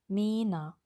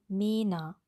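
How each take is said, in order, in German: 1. Der erste Vokal ist ein langes geschlossenes e. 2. Der erste Vokal ist ein langes geschlossenes e.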